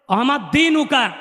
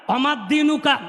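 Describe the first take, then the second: No difference in how they are said.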